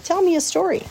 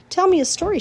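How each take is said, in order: First: High, pleading little-pig voice; pig's plea again. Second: High, pleading little-pig voice; a sleepy piglet begging; pig's plea. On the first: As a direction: beg once more, hopeful. Wilbur repeats his plea. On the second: Wilbur begs sleepily. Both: A narrator's reading.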